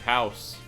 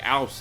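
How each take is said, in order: First: The word starts with an h sound. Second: The word starts without an h sound. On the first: "instead of house" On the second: "They say ouse"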